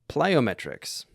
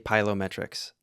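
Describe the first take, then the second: First: The L comes before the first vowel. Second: The L comes after the first vowel. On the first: The speaker calls it right. "P L, plyo, plyometrics" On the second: The speaker calls it wrong. "Do not say pylometrics"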